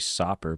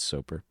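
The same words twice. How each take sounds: First: The first vowel is short, as in 'sop'. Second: The first vowel is long, as in 'soap'. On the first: "Could be Soper, but there's not two P's" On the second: "I bet it's Soper"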